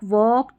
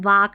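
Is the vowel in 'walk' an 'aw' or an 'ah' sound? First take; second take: aw; ah. First: The vowel is a rounded 'aw' sound. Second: The vowel is an open 'ah' sound. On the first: The speaker calls it right. "तो भी हम अ पढ़ेंगे" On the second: The speaker calls it wrong. "हम वाक नहीं पढ़ते"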